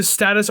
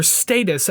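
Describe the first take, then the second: First: "Status" said with a short flat A as in "stat"; "Status" with the vowel of "cat". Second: "Status" said STAY-tus; "Status" with the first syllable rhyming with "day"; long-A status. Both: Shown as a demonstration. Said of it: "as they say in the song".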